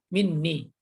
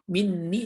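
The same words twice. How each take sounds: First: The n sound is short and single. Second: The n sound is held long and doubled.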